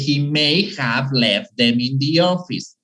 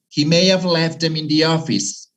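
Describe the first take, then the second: First: May have is said fully and separately. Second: May have is contracted and said quickly. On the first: The speaker calls it wrong. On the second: The speaker calls it right.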